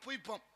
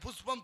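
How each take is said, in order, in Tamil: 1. நடுவுல இருக்கிற மெய் y ஒலிதான். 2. நடுவுல இருக்கிற மெய் sh ஒலிதான். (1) "புய்பம்ங்கிறானே" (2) "புஷ்பம்னு சொல்ல தெரியல"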